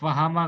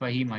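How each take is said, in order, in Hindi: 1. बीच का स्वर लंबा a है। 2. बीच का स्वर लंबा i है। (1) "फहामा गलत हो जाएगा" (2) "क्या होना चाहिए? फहीमा"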